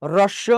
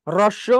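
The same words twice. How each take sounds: No difference in how they are said.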